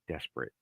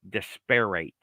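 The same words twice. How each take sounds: First: It is pronounced differently from how it's written. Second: Every letter is pronounced just as it is written. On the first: The speaker calls it right. "what what did he say?" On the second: The speaker calls it wrong. "I think you were pronouncing it like it's spelt"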